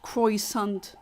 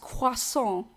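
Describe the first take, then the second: First: It is said with an English pronunciation. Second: It is said with a French pronunciation. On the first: The speaker calls it wrong. "It's not croissant" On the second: The speaker calls it right. "No, it's croissant"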